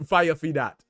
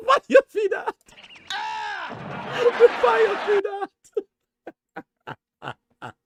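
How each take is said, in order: First: Louder, laughing through the words. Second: Much higher, louder, slow squeal with laughter. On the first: To the co-host about Styles, a louder laughing call. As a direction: laugh it out, amused. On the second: To the co-host about Styles, a high squealing laughing yell. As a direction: shriek it while cracking up. Cracking up, repeating the call. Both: Real, not acted.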